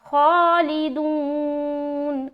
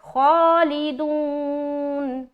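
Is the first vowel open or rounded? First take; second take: rounded; rounded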